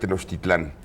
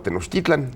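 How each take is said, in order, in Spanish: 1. El acento está en la última sílaba. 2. El acento está en la penúltima sílaba. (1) "yo de niño yo aprendí que esto era la Gran Tenochtitlán" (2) "después Octavio Paz me puso de moda Tenochtitlan"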